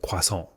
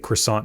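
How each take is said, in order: First: The word is said with a French pronunciation. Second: The word is said with an English pronunciation. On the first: "instead of croissant" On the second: "somebody would say croissant"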